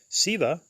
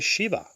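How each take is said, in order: First: The word begins with a plain s sound. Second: The word begins with an sh sound. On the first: "some Hindus say Siva" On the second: "while others say Shiva"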